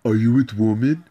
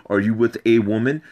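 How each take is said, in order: First: Imitating his wife's broken English, rising; mock broken English. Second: Said in the usual way. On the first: Man mocking his wife's broken English question. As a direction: parrot her missing article as a question. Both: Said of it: "She wouldn't even know how to say".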